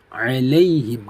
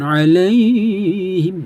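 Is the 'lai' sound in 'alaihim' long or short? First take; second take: short; long. First: The 'lai' syllable is kept soft and short. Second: The 'lai' syllable is drawn out long. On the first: The speaker calls it right. "Ini tetap dibaca lunak, pendek" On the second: The speaker calls it wrong. "Jangan alaihim, jangan"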